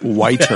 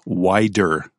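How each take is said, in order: First: The middle consonant is a crisp, clear T. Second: The middle consonant sounds like a soft D. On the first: The speaker calls it right. "You want it to be whiter" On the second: The speaker calls it wrong. "you don't want to say wider than snow"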